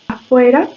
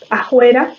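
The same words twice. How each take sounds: First: The f is made with both lips. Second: The f is replaced by a breathy h. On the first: "la bilabial es más similar a una M, a una B o una P, pero fricativa" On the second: "O la aspiración"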